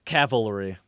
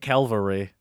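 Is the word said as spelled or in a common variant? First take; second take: as spelled; common variant. First: The word is said the way it is spelled. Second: The word is said in a common non-spelled form. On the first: The speaker calls it right. "But it's cavalry. That's how it's spelled" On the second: The speaker calls it wrong. "Most people say cavalry"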